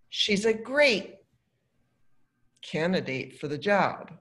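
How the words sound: It sounds mocking and sarcastic. She is not actually a good candidate. "The second, I'm being sarcastic"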